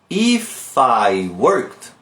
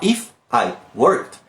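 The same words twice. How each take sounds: First: The words run together, linked smoothly. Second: The words are said separately, not linked. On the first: The speaker calls it right. "eu vou emendar isso aqui" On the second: The speaker calls it wrong. "Eu não vou falar"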